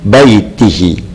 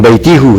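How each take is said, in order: First: The final vowel is i. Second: The final vowel is u. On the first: The speaker calls it right. "tapi baitihi" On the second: The speaker calls it wrong.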